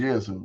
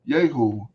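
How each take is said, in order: First: The name is said with a z sound. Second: The name is said with an h sound. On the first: The speaker calls it wrong. "I'm saying Yezu, my bad" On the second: The speaker calls it right. "I don't know why I put an S on that for"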